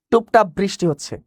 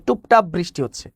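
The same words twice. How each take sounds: The two takes are said the same way.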